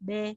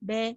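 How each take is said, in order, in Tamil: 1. உயிர் ஒலி திறந்த 'e' போல ஒலிக்கிறது. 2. உயிர் ஒலி திறந்த 'e' போல ஒலிக்கிறது.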